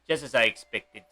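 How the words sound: It is said with a put-on Russian accent. The speaker calls it right.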